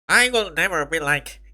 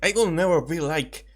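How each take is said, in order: First: It is said in Monokuma's voice. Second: It is said in her normal voice.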